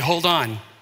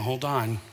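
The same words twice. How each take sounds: First: It is said sharply, with urgent alarm. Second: It is said calmly, in a wary drawl. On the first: Brace yourself for sudden danger right now. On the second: Wait and see before celebrating.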